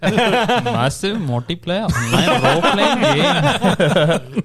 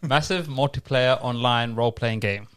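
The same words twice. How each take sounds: First: It is said in an Indian accent. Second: It is said in his normal accent.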